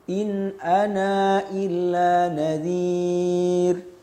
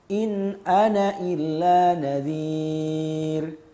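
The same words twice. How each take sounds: First: The final vowel of 'ana' is kept but short. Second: The final vowel of 'ana' is dropped entirely. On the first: "Ini dengan isbat. ... isbat dengan qasr" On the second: "tarkul isbat. Maknanya dengan menghapus alifnya ketika wasol"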